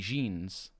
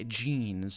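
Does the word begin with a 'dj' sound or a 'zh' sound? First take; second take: zh; dj. First: The word begins with a 'zh' sound. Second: The word begins with a 'dj' sound. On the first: The speaker calls it wrong. "you don't say jeans" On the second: The speaker calls it right. "you say the D before the J. You go with J"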